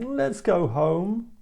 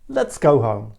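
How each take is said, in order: First: It is said in a bored, whiny way. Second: It is said in a firm, commanding way. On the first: The person is tired and wants to leave. "a bored child saying" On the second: A person in charge is giving an order. "a boss says"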